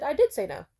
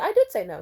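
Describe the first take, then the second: First: "I did say no" with did punched higher and louder; emphatic repeat. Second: "I did say no" with did hit hard, pushing back at him; insistent. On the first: Repeating it to him after his what, did louder. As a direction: repeat it harder, did ringing out. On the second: To the guy blaming her, hitting did firmly. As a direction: stress on did, louder and firmer. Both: Retold or imitated.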